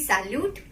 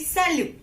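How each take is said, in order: First: The final consonant is sounded. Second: The final consonant is silent. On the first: The speaker calls it wrong. "It will not be salute" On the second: The speaker calls it right. "It will be salu"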